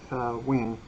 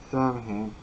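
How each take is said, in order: First: The middle 'mh' is said as a 'w' sound. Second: The word is said as spelled, with 'm' and 'h'. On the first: "pronounced like Sa-win" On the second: "pronounced phonetically in modern American English as Samhain"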